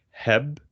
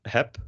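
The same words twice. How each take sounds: First: Heb with a real b ending; "heb", voice held into the final b; voiced final B. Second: Heb said like "hep"; "heb", crisp p at the end; final B as P. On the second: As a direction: say "heb" ending on a voiceless p. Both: Shown as a demonstration. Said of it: "it's a P instead of a B".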